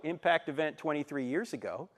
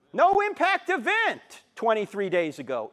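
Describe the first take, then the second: First: Said in the usual way. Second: "No" punched, slower and louder; stress on No. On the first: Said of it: "Impact event ... years ago". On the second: Shown as a demonstration. Speaker contrasts days with years, stressing "No" loudly. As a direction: lean hard on "No impact event". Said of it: "No impact event ... days ago".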